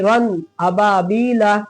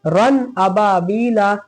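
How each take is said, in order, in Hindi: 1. n की आवाज़ साफ़ और अलग बोली जाती है। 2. n की आवाज़ साफ़ और अलग बोली जाती है।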